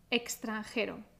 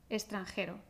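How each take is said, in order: First: The x is pronounced as a ks sound. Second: The x is pronounced as an s sound. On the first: "Si pronunciamos la X como una X, vamos a pronunciar de una manera más enfática" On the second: "si pronunciamos la X como una S"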